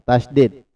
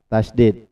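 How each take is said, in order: Both takes have the same delivery.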